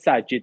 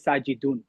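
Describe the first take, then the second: First: The name ends without any added ending. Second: The name ends with an added '-un' ending. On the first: This is the form used in everyday speech. "We don't pronounce the last uh, uh, i'rab" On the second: This is the full form used in writing and class. "I don't say my name is Sajidun"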